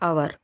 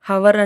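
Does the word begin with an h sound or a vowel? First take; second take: vowel; h sound. First: The word begins directly with a vowel. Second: The word begins with an h sound. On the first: The speaker calls it right. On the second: The speaker calls it wrong.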